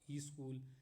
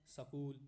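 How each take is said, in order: First: A short i vowel is added before sk. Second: A short vowel is inserted between s and k. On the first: "ई स्कूल बोलते हैं" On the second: "स्कूल को सकूल बोलते हैं बहुत लोग"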